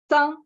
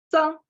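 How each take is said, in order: No difference in how they are said.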